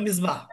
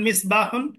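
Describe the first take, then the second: First: The word ends without the 'un' sound. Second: The word ends with a full 'un' sound. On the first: This is the regional colloquial form. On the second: This is the formal standard form.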